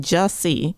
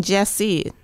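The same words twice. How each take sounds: First: "Jussie" with a U as in fuss; correct pronunciation. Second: "Jesse" with an E as in dress; mistaken pronunciation. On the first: Guest shows host the right name, "Jussie" with a U. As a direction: say "Jussie" as JUSS-ee. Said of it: "at least you're not saying Jesse". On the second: Guest shows host the wrong name, "Jesse" with an E. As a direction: say "Jesse" as JESS-ee. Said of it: "and you're saying Jussie". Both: Shown as a demonstration.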